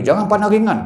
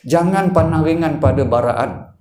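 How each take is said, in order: First: Jangan pandang ringan, ringan stressed higher with a falling end; preacher repeats the warning, hitting ringan; emphatic repeat. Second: Said in the usual way. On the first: Shown as a demonstration. Preacher urges the congregation not to take it lightly, emphatic. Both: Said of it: "ulang kali saya cerita".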